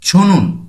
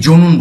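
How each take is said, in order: First: The first consonant is aspirated. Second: The first consonant is unaspirated. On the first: The speaker calls it right. "চ এর মহাপ্রাণ কি হবে? ছ" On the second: The speaker calls it wrong. "এটি আমরা অনেকেই জনুন বলি।"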